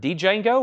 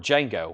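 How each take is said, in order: First: The D sound is pronounced at the start. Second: The D is silent at the start.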